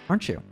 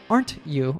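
First: The t and y merge into sh. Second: The t and y are said separately.

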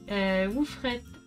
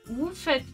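First: An r sound follows the f. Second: No r sound follows the f. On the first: The speaker calls it wrong. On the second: The speaker calls it right.

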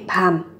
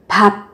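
First: The word ends in an m sound. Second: The word ends in a b sound. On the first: "các bạn sẽ biến âm là thành 밤" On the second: "Còn thực tế của nó là từ 밥"

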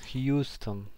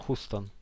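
First: A y glide follows the h sound. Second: No y glide follows the h sound. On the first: "I to przez J"

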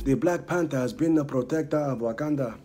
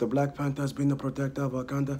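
First: The pitch goes higher and lower word by word. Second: The pitch stays fairly level across the words. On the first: The speaker calls it right. "every other word is like higher and lower" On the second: The speaker calls it wrong. "So instead of just"

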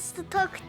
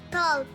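First: It sounds like Turkish 'stok' with a short o. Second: It sounds like English 'stalk' with a long vowel. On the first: The speaker calls it wrong. "stok değil" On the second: The speaker calls it right.

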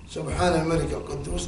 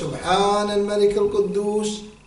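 First: It is said short, at normal volume. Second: It is drawn out with a raised voice.

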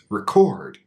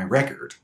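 First: The stress is on the second syllable. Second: The stress is on the first syllable. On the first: It is used as a verb. "If a verb is two syllables, it's almost always stressed on the second sound" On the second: It is used as a noun. "our only way to know the difference is the stress"

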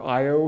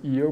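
First: The name is pronounced the common English way. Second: The name is pronounced the Greek way. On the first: "You'll probably hear Io quite frequently" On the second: "I pronounce it Io because that's the way the Greeks say it"

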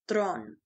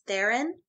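First: The surname is pronounced the Afrikaans way. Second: The surname is pronounced the American way. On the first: "the way she pronounces it in Afrikaans is Thron" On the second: "in America she goes by Charlize Theron"

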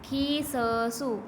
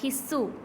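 First: The middle consonant is followed by a vowel. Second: The middle consonant is doubled without a vowel.

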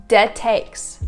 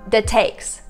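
No difference in how they are said.

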